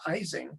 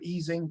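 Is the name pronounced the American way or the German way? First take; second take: American; German. First: It is pronounced the American way. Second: It is pronounced the original German way. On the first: This is how the name came to be said in the U.S. "the American mispronunciation" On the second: This is how the name was first said. "he wanted a less German name"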